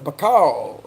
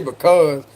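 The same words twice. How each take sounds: First: It is said in a South Carolina accent. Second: It is said in a standard accent. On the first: This is how the speaker's father says it. "he says because" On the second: This is not how the speaker's father says it. "he don't say because"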